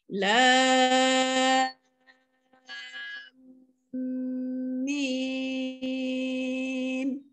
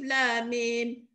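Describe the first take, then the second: First: The m is held with a long nasal hum. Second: The m is short with no nasal hum. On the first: The speaker calls it right. "Kenapa saya dengung? Sebab mim bertemu dengan mim kena dengung lah" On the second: The speaker calls it wrong. "mana ada dengung, mana ada panjang"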